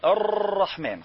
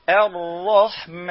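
First: الرحمن with an exaggerated trilled r; overrolled r. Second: الرحمن slow, with one light tap on the r; correct light r. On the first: Teacher showing the wrong r in الرحمن. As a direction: rattle the r in الرحمن too much. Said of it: "خطأ". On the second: Teacher modelling the correct r in الرحمن. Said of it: "بل قل". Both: Shown as a demonstration.

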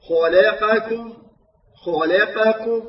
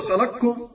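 First: "خلقكم" ببطء مع زمن كامل لكل فتحة; رتّل "خلقكم" دون خطف أي حركة; فتحات تامّة. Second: "خلقكم" بقاف مخطوفة الفتحة "خلقْكم"; أسقط معظم فتحة القاف في "خلقكم"; اختلاس الفتحة. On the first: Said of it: "نقول". (تلاوة "خلقكم" الصحيحة المتأنية) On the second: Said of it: "ولا نقول". (قراءة "خلقكم" الخاطئة السريعة) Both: Shown as a demonstration.

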